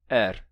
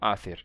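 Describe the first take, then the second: First: There is no middle consonant at all. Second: The middle consonant is a th sound. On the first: This is how some accents say it today. "não se pronuncia nem esse h do meio" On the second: This is the old pronunciation. "Isso é a pronúncia do gaélico antigo"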